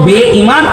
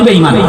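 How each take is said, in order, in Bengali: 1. শব্দটি তার পূর্ণ, আলাদা আলাদা রূপে বলা হয়েছে। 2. শব্দটি সংক্ষিপ্ত, একসাথে জুড়ে যাওয়া রূপে বলা হয়েছে। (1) "আসল ছিল বে ইমান" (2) "আমরা বলি বেঈমান মানে ওটাকে শর্ট করে"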